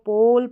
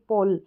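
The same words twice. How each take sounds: First: The o vowel is drawn out long. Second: The o vowel is clipped short. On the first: The speaker calls it right. "हम इसको पोल पढ़ेंगे" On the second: The speaker calls it wrong. "ना कि पोल"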